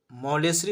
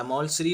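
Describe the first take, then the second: First: مولیسری said mo-le-sri, in three syllables; pronunciation with extra vowel. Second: مولسری said maul-sri, no vowel after l; Urdu pronunciation. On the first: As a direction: say مولیسری with an "e" after the l. (مولیسری کو "مو-لے-سری" کہیں) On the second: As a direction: open "au", then run l straight into sri in مولسری. (مولسری کو "مَول-سری" کہیں) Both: Shown as a demonstration. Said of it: "اس کو بولتے ہیں اردو میں مولسری".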